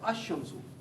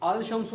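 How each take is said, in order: First: The L is silent, merged into a doubled sh. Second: The L is clearly pronounced before shamsu. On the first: The speaker calls it right. "यहाँ पर अशमसु पढ़ रहा हूँ मैं" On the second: The speaker calls it wrong. "अल पढ़ूंगा तो गलत है"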